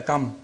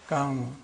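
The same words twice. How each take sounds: First: Said in the usual way. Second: "come" as first half of comfort, m left soft; hidden M. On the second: Shown as a demonstration. Teacher isolating part of comfort, "come" with a hidden m. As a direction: say "come" with the m shaped for a coming f. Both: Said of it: "You don't say come".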